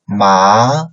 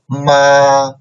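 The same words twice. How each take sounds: First: The pitch rises from mid to high. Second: The pitch stays high and level.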